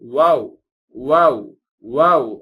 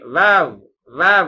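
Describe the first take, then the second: First: It starts with rounded lips not touching. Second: It starts with upper teeth on lower lip. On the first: The speaker calls it right. "வாவ் வாவ் வாவ் என்பதாக இதை உச்சரிக்க வேண்டும்" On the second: The speaker calls it wrong. "மேல் பல்லை கீழ் உதட்டில் டச் பண்ணி வாவ் வாவ் அப்படி சொல்லக்கூடாது"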